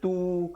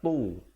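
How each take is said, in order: First: The t sound is light and plain. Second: The t sound is heavy and deep. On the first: The speaker calls it wrong. "jangan baca tu, kalau tu jadi huruf ta" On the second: The speaker calls it right. "sekarang ni tu"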